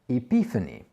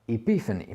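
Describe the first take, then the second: Both takes have the same delivery.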